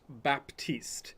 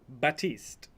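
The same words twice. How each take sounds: First: The P in the name is pronounced. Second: The P in the name is silent. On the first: The speaker calls it wrong. "It's not Baptiste, like you want to say" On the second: The speaker calls it right. "The P is silent, so it's Baptiste"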